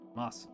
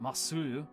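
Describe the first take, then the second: First: The final u vowel is dropped. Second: The final u vowel is pronounced. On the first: The speaker calls it right. "it's Mas. You see, you can kind of hear it" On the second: The speaker calls it wrong. "It's not Masu"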